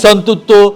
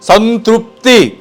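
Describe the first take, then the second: First: The word ends with an 'o' sound. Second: The word ends with an 'ee' sound. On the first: The speaker calls it wrong. "అది సంతృప్తో సంతూరు సోపో కాదు" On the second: The speaker calls it right.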